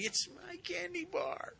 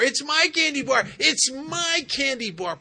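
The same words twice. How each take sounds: First: Put-on very high, softer childish whine; whiny stubborn little girl. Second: Put-on much higher, much louder child's yell; stubborn little girl shouting. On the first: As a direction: whine it like a sulking kid who won't give in. Stubborn girl refuses again. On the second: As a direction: scream it like a kid clutching her candy. Stubborn girl refuses paramedic.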